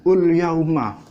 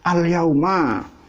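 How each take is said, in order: First: The phrase begins with an 'u' vowel sound. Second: The phrase begins with an 'a' vowel sound. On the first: The speaker calls it wrong. "dibacanya ul yauma" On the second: The speaker calls it right. "saya benarkan al yauma"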